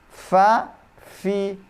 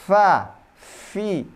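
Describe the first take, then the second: The two takes are said the same way.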